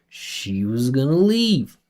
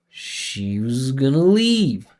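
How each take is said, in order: The two takes are said the same way.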